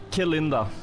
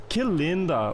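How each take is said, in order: First: "Que linda" with a Spanish accent; Spanish-influenced pronunciation. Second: "Que linda" with a melodic Brazilian lilt; Brazilian Portuguese melody. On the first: Real, not acted. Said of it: "That's Spanish". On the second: Shown as a demonstration. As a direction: let "Que linda" swing up and fall, Brazilian style. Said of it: "Brazil is more like".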